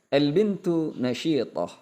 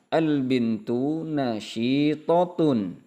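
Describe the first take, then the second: First: The last word ends short, in -ah. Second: The last word ends fully, in -atun. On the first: "bisa dibaca seperti itu" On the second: "kita baca semua tanda dan harokatnya"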